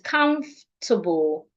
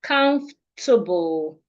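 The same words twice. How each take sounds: No difference in how they are said.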